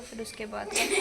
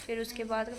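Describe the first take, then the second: First: Laughing. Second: Said in the usual way. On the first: Real, not acted.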